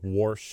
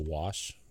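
First: The word is said with an added R sound. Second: The word is said without any R sound. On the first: The speaker calls it wrong. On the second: The speaker calls it right.

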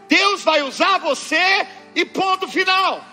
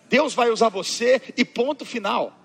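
First: It is said at a louder volume. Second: It is said at normal, softer volume.

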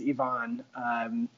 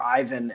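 First: The name is said the local, non-American way. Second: The name is said the way Americans say it. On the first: "His name is" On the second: "as some Americans would say"

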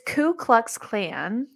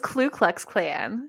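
First: The first word has no L sound. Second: The first word has an added L sound. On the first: The speaker calls it right. "It's Ku Klux Klan" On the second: The speaker calls it wrong. "I have been mispronouncing it my entire life"

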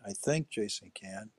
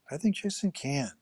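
First: The stress is on the word 'think'. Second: The stress is on the word 'can'.

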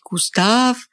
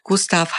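First: The name is said the French way. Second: The name is said the German way.

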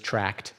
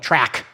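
First: The word ends with a clear t sound. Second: The word ends without a t sound. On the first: "you don't pronounce it as tract. I only did that for y'all" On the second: "They call it a track"

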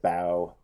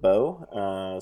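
First: The vowel differs from the end of rainbow. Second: The vowel matches the end of rainbow. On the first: The speaker calls it wrong. "I said bow a lot" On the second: The speaker calls it right. "instead of bow"

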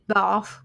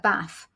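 First: It is said with a southern English vowel. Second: It is said with a northern English vowel. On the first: The speaker calls it right. "And we would all say Bath" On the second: The speaker calls it wrong. "you wouldn't find anyone in the south of England that would call it a Bath"

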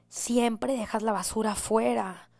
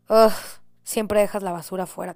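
First: It is said in a kind, neutral tone. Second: It is said in an annoyed, reproachful tone.

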